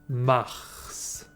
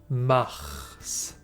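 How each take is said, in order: The two takes are said the same way.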